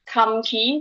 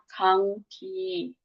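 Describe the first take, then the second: First: An m sound comes before the g. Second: An ng sound comes before the g.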